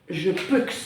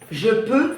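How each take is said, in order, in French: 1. La consonne finale X est prononcée. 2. La consonne finale est muette. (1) "Tu ne dis pas je peux" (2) "tu ne prononces pas le X"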